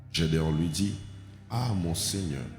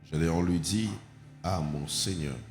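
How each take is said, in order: Both takes have the same delivery.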